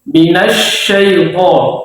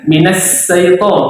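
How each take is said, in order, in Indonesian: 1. Konsonannya bunyi sh. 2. Konsonannya bunyi s biasa. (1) "Bedakan shin dengan sin"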